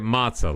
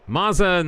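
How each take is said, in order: First: The middle consonant is a ts sound. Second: The middle consonant is a plain z sound.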